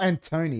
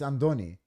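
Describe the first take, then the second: First: The middle consonant is a T sound. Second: The middle consonant is a D sound. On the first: The speaker calls it wrong. "That's not Antoni" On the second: The speaker calls it right. "that's how we pronounce it"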